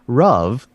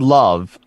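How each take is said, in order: First: The word begins with an R-like sound. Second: The word begins with a clear L sound. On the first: "my Mandarin tongue only makes me say Rov" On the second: "The word love"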